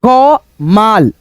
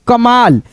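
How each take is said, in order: First: क माल broken into क and माल, said very slowly; teacher sounding out क माल slowly; sounded out slowly. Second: Said in the usual way. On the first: Shown as a demonstration. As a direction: split क माल apart slowly so pupils hear each part. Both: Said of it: "सुनिए आवाज अच्छे से".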